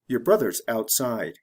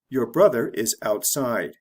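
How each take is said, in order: First: Said quickly with words reduced and run together. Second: Said slowly with each word separate and full.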